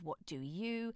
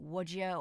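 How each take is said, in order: First: Each word is said fully and separately. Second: The words melt together into one reduced word. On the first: "instead of" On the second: "the combinations of words melding together"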